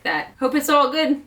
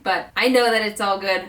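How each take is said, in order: First: "all" lifted high in hope; hopeful stress. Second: "know" pressed firmly; stress on know. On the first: Expectant mom stressing "all" with hope. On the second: Expectant mom insisting she "know"s it's fine. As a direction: land on "know" with certainty. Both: Shown as a demonstration.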